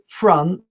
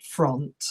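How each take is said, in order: First: The vowel is not an O sound. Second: The vowel is said as an O sound. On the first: The speaker calls it right. "You should say front" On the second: The speaker calls it wrong. "and not front"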